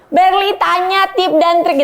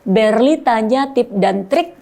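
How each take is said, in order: First: The words start from a high pitch. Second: The words start from a low pitch. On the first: The speaker calls it wrong. "jangan dari uh, high tone ... Jangan gitu" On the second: The speaker calls it right. "Coba dari dari rendah aja"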